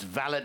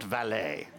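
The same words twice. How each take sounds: First: The word ends with a 't' sound. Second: The word ends with an 'ay' sound. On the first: It means a personal manservant. The speaker calls it right. "we're not parking cars, it's valet" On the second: It means someone who parks cars. The speaker calls it wrong. "not valet"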